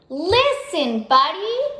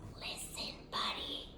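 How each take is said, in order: First: It is yelled loudly. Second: It is whispered softly.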